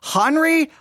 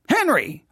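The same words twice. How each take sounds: First: The name is said unlike the English Henry. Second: The name sounds like the English name Henry. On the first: The speaker calls it right. "I think it's Henry" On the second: The speaker calls it wrong. "I'm from Texas, so I'd probably say Henry. Okay, but that's not right"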